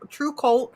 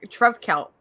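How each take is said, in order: First: The middle letter is sounded as an oo. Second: The middle letter is sounded as a V. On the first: "because the V's are supposed to be uh, Nordic U's" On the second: "That's how I pronounce it in my head"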